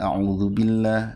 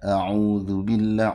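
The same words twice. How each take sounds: First: The u vowel in a'udzu is kept short. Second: The u vowel in a'udzu is held long. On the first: "ada yang pendek itu yang bacanya" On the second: "u-nya panjang ya"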